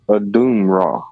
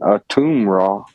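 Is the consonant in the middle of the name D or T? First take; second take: D; T. First: The middle consonant is a D sound. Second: The middle consonant is a T sound. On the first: "the letter T in Egyptian, we pronounce it as the letter D" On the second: "instead of being a Atum Ra"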